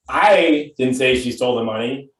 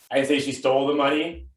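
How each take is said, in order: First: The stress is on "I". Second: The stress is on "stole".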